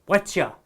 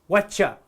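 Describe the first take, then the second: Both takes have the same delivery.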